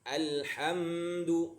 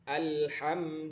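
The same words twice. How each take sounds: First: The m sound is held too long. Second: The l and m sounds are equally long. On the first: The speaker calls it wrong. "udah salah mimnya itu" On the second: The speaker calls it right. "durasinya harus tek tek tek"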